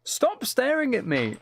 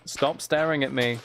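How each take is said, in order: First: Much higher, slow and drawn out; high squeaky plea. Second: Said in the usual way. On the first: Acted. Streamer pleading with a staring animal, high and slow. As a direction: squeal it like a cartoon.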